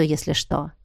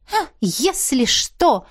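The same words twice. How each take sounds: First: Said in the usual way. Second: Mocking mimic. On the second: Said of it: "передразнила я".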